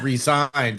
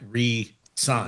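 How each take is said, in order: First: The middle consonant is a buzzing z sound. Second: The middle consonant is a hissing s sound. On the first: He quit his job. The speaker calls it wrong. "it read the text and it said resigned" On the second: He signed a new contract. The speaker calls it right. "he probably meant re-signed"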